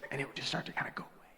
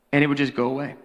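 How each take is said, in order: First: Fast, voiceless whisper of a lost voice; whispered demo of a voice gone. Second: Said in the usual way. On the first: Shown as a demonstration. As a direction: let it all fade to breath. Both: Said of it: "sound like this".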